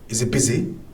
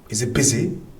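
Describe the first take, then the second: First: The h sound is dropped, said quickly. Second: The same.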